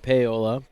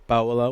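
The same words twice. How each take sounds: First: The name is given a Midwestern pronunciation. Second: The name is given its standard pronunciation. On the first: "because I'm paying respect to my friends in the Midwest" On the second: "which I know is correct"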